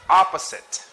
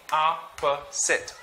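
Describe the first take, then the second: First: Said in the usual way. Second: Opposite slowly, one syllable at a time; syllabicated. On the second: Shown as a demonstration. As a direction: say "Opposite" as "ah, puh, sit". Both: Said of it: "Let's try to syllabicate".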